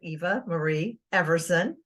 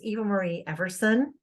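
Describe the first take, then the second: First: The name is said slowly. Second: The name is said at normal speed.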